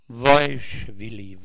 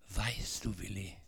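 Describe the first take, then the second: First: It is spoken in a Swabian dialect accent. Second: It is spoken in Standard German pronunciation.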